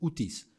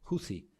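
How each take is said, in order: First: The middle consonant is a plain t sound. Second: The middle consonant is a soft th sound. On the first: The speaker calls it wrong. "les llaman a veces hutis, pero no, está mal dicho" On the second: The speaker calls it right. "Es huthi, con Z, con zein"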